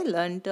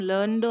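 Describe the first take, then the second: First: ಲರ್ನ್ಟು with a sharp T after the N; learnt, shown with a T sound; voiceless T ending. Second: ಲರ್ನ್ಡು with a voiced D after the N; learned, shown with a D sound; voiced D ending. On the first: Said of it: "ಲರ್ನ್ಟು ಆಗುತ್ತೆ". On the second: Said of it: "past form ಲರ್ನ್ಡು ಆಗುತ್ತೆ". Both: Shown as a demonstration.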